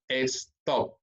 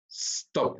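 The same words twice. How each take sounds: First: "stop" said slowly as "es-top", with an E in front; wrong Spanish-style pronunciation. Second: "stop" starting straight on a hissed S, no E before it; one-syllable English pronunciation. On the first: Teacher warns learners what not to say, "stop" mispronounced as two-syllable "es-top". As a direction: add an E before the S in "stop": "estop". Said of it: "El sonido en inglés es stop". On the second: Teacher models the English sound, "stop" as one syllable beginning with pure S. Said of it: "una sola sílaba, un solo sonido". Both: Shown as a demonstration.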